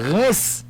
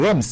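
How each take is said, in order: First: The word ends in a nasal vowel and s. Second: The word is sounded out as it is spelled. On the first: The speaker calls it right. "mais c'est Reims li prononcer" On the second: The speaker calls it wrong. "Normalement tu es capable de dire Reims"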